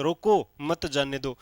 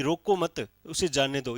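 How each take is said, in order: First: "रोको", pause, then "मत जाने दो" as one unit; pause after रोको. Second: "रोको मत" as one unit, pause, then "उसे जाने दो"; pause after मत. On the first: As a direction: break after रोको so it means stop them. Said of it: "आपने कॉमा यहाँ समझ लिया था". (रोको के बाद विराम) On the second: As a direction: break after मत so it means let them go. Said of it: "यानी मैंने अलाउ किया जाने को". (मत के बाद विराम) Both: Shown as a demonstration.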